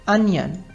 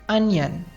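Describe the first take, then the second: Both takes have the same delivery.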